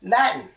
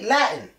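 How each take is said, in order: First: The middle T is stopped in the throat. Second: The middle T is stopped in the throat.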